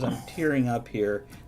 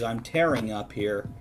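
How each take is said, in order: First: Tearing has the vowel of fear. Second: Tearing has the vowel of care. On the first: Being moved to tears. "Kevin says I'm tearing up here. That was beautiful" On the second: Being ripped apart. "Unless we pronounce it the other way"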